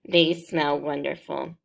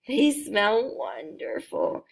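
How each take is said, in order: First: It is said in a calm, plain way. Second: It is said in an excited way.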